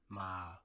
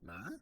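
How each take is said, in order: First: The pitch starts low and falls lower. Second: The pitch rises high at the end. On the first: "It's like you fall down" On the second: "almost like you're raising your eyebrows when you ask a question"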